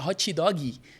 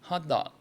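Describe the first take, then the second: First: A Brazilian accent adds extra vowel sounds after consonants. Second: A native English accent adds no extra vowel sounds. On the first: The speaker calls it wrong. "A gente fala hot dog, né? Com uns monte de i" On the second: The speaker calls it right. "lá o gringo fala hot dog"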